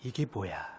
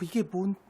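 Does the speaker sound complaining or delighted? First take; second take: complaining; delighted. First: The question sounds grumbling and complaining. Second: The question sounds amazed and delighted. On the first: The gift is received with resentment. The speaker calls it wrong. "에이, 이게 뭐야. 원망과 불평" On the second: The gift is received with gratitude. The speaker calls it right. "와우, 이게 뭔, 웬 떡이냐, 감사합니다"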